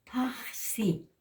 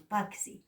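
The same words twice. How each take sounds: First: PAXI with a long throaty rush of air on the x; high PAXI, rasped breath before si; correct aspirated J. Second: PAXI said as pak-si; quick hard k before the si of PAXI; wrong K sound. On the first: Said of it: "sino decimos". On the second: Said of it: "en aymara no decimos paxi". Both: Shown as a demonstration.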